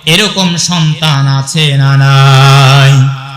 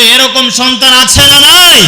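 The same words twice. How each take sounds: First: Drawn-out sung call to the crowd, slow; chanted, slow sing-song preacher's question. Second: Shouted question to the crowd; preacher's loud call for a response. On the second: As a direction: push it out loud so they answer. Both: Acted. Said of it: "আওয়াজ করে বলতে হবে".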